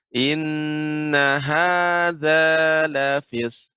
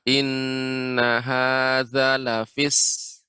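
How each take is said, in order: First: The vowel in hadza is lengthened. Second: The vowel in hadza is short. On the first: The speaker calls it right. "ada mad. Jadi di- ditekan" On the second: The speaker calls it wrong. "tidak ada mad di sini"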